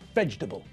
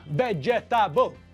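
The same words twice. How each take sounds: First: It is said with three syllables, middle squashed. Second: It is said with four separate syllables. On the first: The speaker calls it right. "it's pronounced vegetable. ... only three syllables" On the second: The speaker calls it wrong. "So it's not vegetable"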